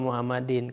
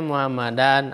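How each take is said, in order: First: The word ends with the vowel i plus n. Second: The word ends with the vowel a plus n. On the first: "Tidak boleh kita membacanya" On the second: "Tidak boleh kita membacanya"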